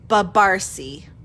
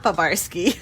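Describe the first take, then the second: First: The name ends with a 'see' sound. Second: The name ends with a 'skee' sound. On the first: The speaker calls it right. "the correct pronunciation is Babarsi" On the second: The speaker calls it wrong. "most people will say Babarski, almost like it's Polish"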